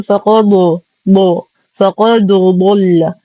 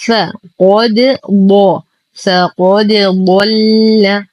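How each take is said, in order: First: فقد ضل slowly, د thickened like the ض, faqado; mistaken heavy dal. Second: فقد ضل slowly, light bounced د, then heavy ض; light bounced dal. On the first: Teacher shows the error, heavy د in فقد ضل. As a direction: darken the د of فقد to match ضل. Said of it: "نفخم الحرفين معًا وهذا خطأ". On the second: Teacher gives the correction, light د in فقد ضل. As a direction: keep د of فقد thin, thicken only ض. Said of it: "فنقول". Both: Shown as a demonstration.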